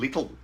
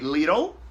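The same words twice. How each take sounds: First: It is said with a British-style middle sound. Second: It is said with an American-style middle sound. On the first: "instead of saying little" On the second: "I'm just using the American pronunciation"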